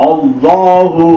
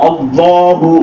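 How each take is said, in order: Both takes have the same delivery.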